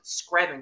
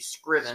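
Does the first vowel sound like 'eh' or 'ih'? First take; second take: eh; ih. First: The first vowel sounds like 'eh'. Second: The first vowel sounds like 'ih'. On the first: The speaker calls it wrong. "I used to pronounce it Screven County" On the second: The speaker calls it right. "It's actually Scriven"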